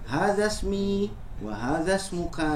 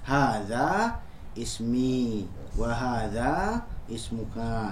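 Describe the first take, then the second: First: The words run together, dropping the initial vowels. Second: Ismi and ismuka start with their own vowel after breaks. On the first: "kalau pengucapannya disekaligus-kan" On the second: "pengucapannya mau dijeda, maka ya silakan saja. Berarti hamzah wasolnya dikasih harokat"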